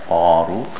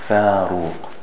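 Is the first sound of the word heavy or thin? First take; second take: heavy; thin. First: The first sound is heavy and thick. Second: The first sound is thin and light. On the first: The speaker calls it wrong. "not faruq" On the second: The speaker calls it right. "Pronounced thin, like faruq"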